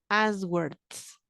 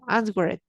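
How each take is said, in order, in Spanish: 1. La terminación es solo un sonido d. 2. La terminación se dice como una sílaba separada. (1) "pero ya es una D" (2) "aunque la digas un poco mal"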